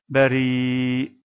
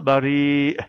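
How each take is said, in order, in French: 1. Le mot se termine sur une voyelle ouverte et traînante. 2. Le mot se termine par une occlusive glottale brusque. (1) "et non pas bari" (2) "on le prononcera bari"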